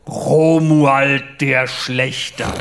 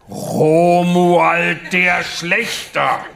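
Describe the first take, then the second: First: Very slow, solemn self-announcement; lightly voiced pompous knight, drawn out; grave knight voice. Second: Very slow, higher and louder proclamation; pompous knight repeating himself louder; insistent knight voice. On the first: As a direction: proclaim the name like a dark knight. Knight announces his name. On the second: Acted. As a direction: hammer the name home, grandly. Knight insists on his name.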